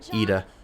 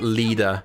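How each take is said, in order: First: The name begins with a vowel sound. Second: The name begins with an L sound. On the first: The speaker calls it right. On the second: The speaker calls it wrong.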